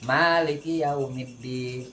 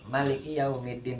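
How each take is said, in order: First: The first vowel of Maliki is held long. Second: The first vowel of Maliki is said short. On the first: He is the one who owns the Day of Judgment. "kalau dibaca panjang" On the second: He is the king of the Day of Judgment. "baca pendek"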